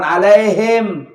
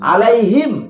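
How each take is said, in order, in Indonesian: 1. Vokal i melemah dan tidak jelas. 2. Vokal i diucapkan penuh dan jelas. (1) "bukan alaihim" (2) "kasrahnya harus betul-betul diucapkan"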